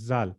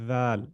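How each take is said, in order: First: The word begins with a buzzing z sound. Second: The word begins with a voiced th sound. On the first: The speaker calls it wrong. "you are saying zal" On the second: The speaker calls it right. "No, we want dhal"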